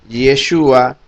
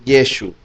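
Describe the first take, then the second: First: The name ends with a final sound after 'u'. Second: The name ends on the 'u' sound. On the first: This is the full form with the final letter. "en vez de decir Yeshua" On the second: This is the regional form that drops the final letter. "los galileos no pronunciaban la letra Ain al final de una palabra"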